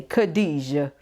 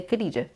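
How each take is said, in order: First: Khadijah with a heavier, throaty kh and relished vowels; Khadijah with flavor. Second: Said in the usual way. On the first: Shown as a demonstration. Teaching viewers the right way to say Khadijah. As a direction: give Khadijah its flavor, savoring each syllable. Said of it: "No, you gotta say Khadijah". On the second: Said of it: "You can't just say Khadijah".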